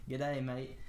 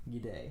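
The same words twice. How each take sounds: First: Light mock Australian accent on "G'day, mate". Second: "G'day" less Australian, more Russian; more Russian accent. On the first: Teacher comparing a Russian word to Aussie slang, mock Australian accent. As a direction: poke fun with an Australian accent. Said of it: "making fun of a Australian or something". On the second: Shown as a demonstration. Teacher correcting the Aussie-sounding word, more Russian accent. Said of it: "a little bit less Australian and a little bit more Russian".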